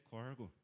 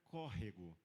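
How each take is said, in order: First: The word is shortened to two syllables. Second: The word is said in full with three syllables. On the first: This is how it is said in the interior region. "Lá em Ourinhos é corgo" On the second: This is how it is said in the south. "No sul, a gente aprendia que era córrego"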